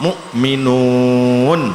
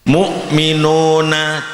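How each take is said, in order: First: The word ends on a consonant, vowel dropped. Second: The word ends with a final vowel sound. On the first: The reader stops at this word. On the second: The reading continues without stopping.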